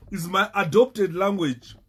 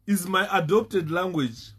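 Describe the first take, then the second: No difference in how they are said.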